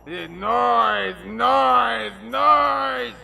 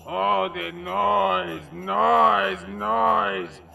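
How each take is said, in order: First: Shouting noise, noise, noise; yelling. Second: Noise drawn out, slowly rising; dramatic emphasis. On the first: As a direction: bellow it, rising each time. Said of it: "Down a notch". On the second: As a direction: stretch each noise, building. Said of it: "dramatic first take". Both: Acted.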